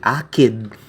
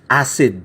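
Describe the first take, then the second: First: The C is pronounced as a K sound. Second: The C is pronounced as an S sound. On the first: The speaker calls it wrong. "you don't say akid" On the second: The speaker calls it right. "It's pronounced like an S sound"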